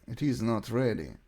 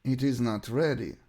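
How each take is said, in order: Both takes have the same delivery.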